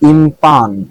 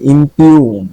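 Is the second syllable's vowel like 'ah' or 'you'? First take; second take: ah; you. First: The second syllable has an 'ah' vowel. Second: The second syllable has a 'you' vowel. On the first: The speaker calls it wrong. "এটা কি ইমপাং না ইমপান?" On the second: The speaker calls it right. "এখানে কিন্তু ইউ উচ্চারণ হয়েছে"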